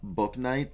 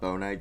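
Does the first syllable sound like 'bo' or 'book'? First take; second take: book; bo. First: The first syllable sounds like 'book'. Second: The first syllable sounds like 'bo'. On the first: The speaker calls it right. "I just found out that's how you say it" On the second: The speaker calls it wrong. "It's not Bo Knight"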